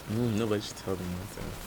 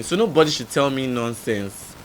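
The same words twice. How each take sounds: First: Much softer repeat, as an aside; low aside. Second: Said in the usual way. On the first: Real, not acted. Repeating own retort under the story, quiet aside. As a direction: drop the voice right down.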